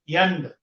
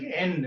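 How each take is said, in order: First: The word begins with a y sound. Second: The word begins directly with a vowel.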